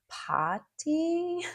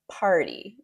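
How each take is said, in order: First: The r after the vowel is dropped. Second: The r after the vowel is clearly pronounced. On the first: "British people might say something like potty" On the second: "it's party in North American English"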